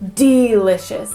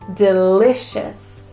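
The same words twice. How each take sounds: First: The first syllable is stressed. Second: The first syllable is unstressed. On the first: The speaker calls it wrong. "So it's not delicious" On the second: The speaker calls it right. "And it's not stressed"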